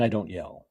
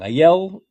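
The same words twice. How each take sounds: First: Said in the usual way. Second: Tag yell. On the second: Shown as a demonstration. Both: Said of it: "I have two levels of speaking".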